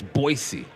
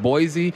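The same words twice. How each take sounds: First: Put-on "Boise" with a hissing s, BOY-see; corrected local pronunciation. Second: Put-on "Boise" with a buzzing z, BOY-zee; mistaken local pronunciation. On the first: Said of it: "No, it's Boise". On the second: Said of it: "and someone said".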